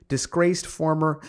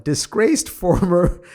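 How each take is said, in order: First: Said in the usual way. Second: Laughing. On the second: Real, not acted. Rereads phrase, laughing mid-word.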